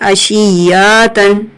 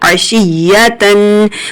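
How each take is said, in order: First: The short vowels are drawn out and distorted. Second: The short vowels are said quickly and crisply. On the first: The speaker calls it wrong. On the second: The speaker calls it right.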